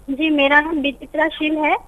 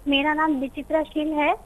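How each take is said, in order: First: Repeated a little louder and clearer; a bit louder. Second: Faint, soft voice over the phone; barely audible. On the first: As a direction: speak up for the caller. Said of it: "आप थोड़ा तेज बोलेंगे". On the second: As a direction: say it too quietly, voice fading. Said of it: "आप थोड़ा तेज बोलेंगे, आपकी आवाज कम आ रही है". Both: Real, not acted.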